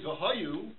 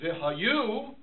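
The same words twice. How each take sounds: First: The stress falls before the last syllable. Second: The stress falls on the last syllable. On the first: It refers to a past state. "it means and they were" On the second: It refers to a future state. "it means these words shall be on your heart"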